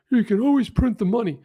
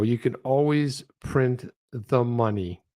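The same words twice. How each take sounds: First: Higher, incredulous echo of the line; a raised, stunned mock repeat; mock disbelief. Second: Slow, deliberate repeat of the line; slowed, flat repeat of a line you can't believe; slow disbelief. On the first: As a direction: repeat it as if you can't believe he said it. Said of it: "He's like". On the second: Real, not acted. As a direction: let each word land, dumbfounded. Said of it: "I thought that was just incredible".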